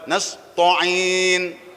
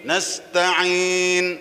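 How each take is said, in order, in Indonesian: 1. Bunyi t-nya berat dan tegas. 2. Bunyi t-nya ringan dan biasa.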